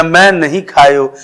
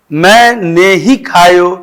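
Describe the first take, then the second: First: "नहीं" said as one joined word after मैं; contrasting word division. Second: Slow "मैंने ही", ही set apart and stressed; deliberate contrast on "मैंने ही"; clarifying word division. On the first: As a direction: stress मैं, then run नहीं together. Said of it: "स्पष्ट होता कि नहीं". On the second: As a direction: separate मैंने from ही clearly. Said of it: "अगर लिखित रूप से होता तो स्पष्ट होता". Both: Shown as a demonstration.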